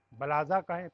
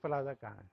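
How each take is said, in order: First: "بلازا" with an opening B sound, not P; B in place of P. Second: Said in the usual way. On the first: Shown as a demonstration. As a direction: say "بلازا" the Arabic way, starting on B. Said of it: "پی نہیں بولتے وہاں پہ". ("بلازا" میں پ کی جگہ ب کی آواز)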